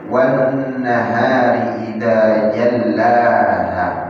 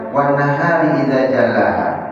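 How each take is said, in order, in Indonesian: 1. Bunyi nasal n dibaca dengung dan l bertasydid. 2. Bunyi nasal n dihilangkan dan l tunggal. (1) "Allah Subhanahu wa taala berfirman" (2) "jangan kita baca ... gunnah nunnya hilang, tasydid di lamnya juga enggak ada"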